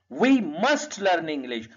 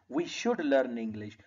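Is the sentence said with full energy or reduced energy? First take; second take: full; reduced. First: It is said with full, maximum energy. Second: It is said with noticeably reduced energy.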